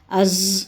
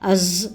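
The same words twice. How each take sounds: The two takes are said the same way.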